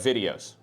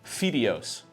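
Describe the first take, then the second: First: The first sound is a clear voiced v. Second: The first sound is close to an f. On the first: The speaker calls it right. "instead of videos" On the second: The speaker calls it wrong. "it becomes videos"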